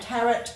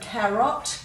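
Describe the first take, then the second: First: The second vowel is reduced to a schwa. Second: The second vowel is full, as spelled. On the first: This is how it is normally said. "We tend to give a schwa sound" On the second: It makes the spelling easier. "if you say them correctly as they've spelt"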